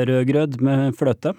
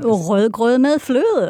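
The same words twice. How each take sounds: First: Rødgrød med fløte said slowly with crisp Norwegian consonants, clear final e; Norwegian pronunciation. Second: Careful, slow native Danish Rødgrød med fløde; Danish pronunciation. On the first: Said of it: "how would you say that without the hot potato". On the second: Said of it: "give it another". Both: Shown as a demonstration.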